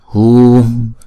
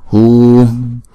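Both takes have the same delivery.

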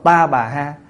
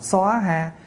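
First: Three syllables, starting with a 'ta' sound. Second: Two syllables, starting with a rounded 'soa' sound. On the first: "có chỗ đọc" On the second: "có chỗ đọc là"

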